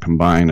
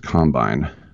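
First: The stress is on the second syllable. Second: The stress is on the first syllable. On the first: This is how the word is said outside football. "It's not offense, defense, and combine" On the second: This is how football people say the word. "you always put the emphasis on the wrong syllable"

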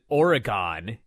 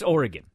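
First: The word is said the way East Coasters say it. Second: The word is said the way locals say it. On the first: The speaker calls it wrong. "I know a lot of people pronounce it Oregon" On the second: The speaker calls it right. "It's Oregon"

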